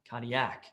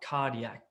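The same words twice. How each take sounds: First: The stress falls on a later syllable. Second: The stress falls on the first syllable. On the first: The speaker calls it wrong. "and it's not cardiac" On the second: The speaker calls it right. "The emphasis is on the car"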